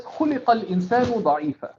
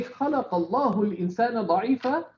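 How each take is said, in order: First: خُلِقَ said fast with u-i vowels, khuliqa; the passive reading خُلِقَ, khuliqa, stressed at the start; passive verb form. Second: خَلَقَ said fast with a-a vowels, khalaqa; quick active-voice reading خَلَقَ اللَّهُ; active verb form. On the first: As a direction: recite خُلِقَ الْإِنسَانُ as passive khuliqa, quickly. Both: Shown as a demonstration. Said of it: "if you say".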